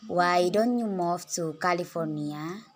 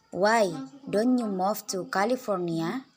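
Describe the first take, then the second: First: "Why don't you move to California?" said slowly at normal pitch, "don't" rising; slow it down, keep the pitch level; slower pitch example. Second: "Why don't you move to California?" raised high, with "don't" rising; higher pitch example. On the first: ("Why don't you move to California?" diucapkan pelan dengan nada biasa) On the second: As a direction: lift the whole question, "don't" rising high. ("Why don't you move to California?" dengan nada tinggi, "don't" naik) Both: Shown as a demonstration. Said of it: "Contoh-contoh kalimat pada pitch".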